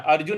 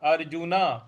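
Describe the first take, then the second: First: अर्जुन cut short, the final न swallowed; the wrong clipped अर्जुन. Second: अर्जुन with the last न fully voiced as अर्जुना; full final na. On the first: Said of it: "अर्जुन नहीं बोलना है". (गलत, अधूरा अर्जुन) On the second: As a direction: sound the न fully at the end of अर्जुन. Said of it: "न पूरा बोलना है". (न पूरा बोलते हुए अर्जुन) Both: Shown as a demonstration.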